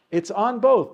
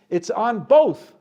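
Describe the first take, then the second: First: Repeated with lighter stress, falling on "both"; softer echo. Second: Louder and slow, "both" hit hard; emphatic stress on both. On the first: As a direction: echo it back more gently. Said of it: "teacher repeats the point". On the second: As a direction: punch "both" as the key point. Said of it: "teacher drives home the point". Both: Shown as a demonstration.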